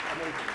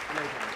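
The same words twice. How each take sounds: The two takes are said the same way.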